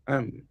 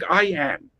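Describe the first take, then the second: First: The words merge, with the vowel swallowed. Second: Both words are said fully and separately. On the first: This is how a native British speaker says it. "a native speaker of English will speak it am, So he is swallowing am" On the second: This reflects a Bengali mother tongue influence. "a Bengali will speak I and am both very clearly and distinctly"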